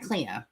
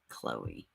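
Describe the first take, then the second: First: The name is said as Cleo. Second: The name is said as Chloe. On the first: The speaker calls it wrong. "I was wrong" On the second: The speaker calls it right. "I think they pronounce it Chloe"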